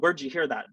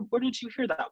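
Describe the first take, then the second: First: The question sounds sharp and judgmental. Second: The question sounds calm and relaxed. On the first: The question is disapproved of. The speaker calls it wrong. "your tone of voice can really imply that there's judgment" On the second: The question is welcome and fine to ask. The speaker calls it right. "can really put people at ease"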